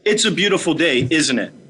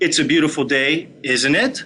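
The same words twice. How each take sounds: First: The pitch falls at the end of the tag. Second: The pitch rises at the end of the tag. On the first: The speaker expects agreement, not an answer. "a downward inflection in your voice that implies a yes" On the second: The speaker is genuinely asking a question. "tonality at the end would raise"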